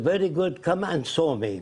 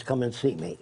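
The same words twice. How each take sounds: First: Lightly mimicked Arab accent; imitated Arab accent. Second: Said in the usual way. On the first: Arab leader invites the caller over, imitated Arab accent. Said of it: "He said in his accent". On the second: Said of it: "means come and see me".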